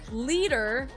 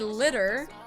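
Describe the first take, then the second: First: The name is said like the word leader. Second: The name is said like the word litter. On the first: This is how the speaker prefers to say it. "But I want to say" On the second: This is how the game says it. "they say litter"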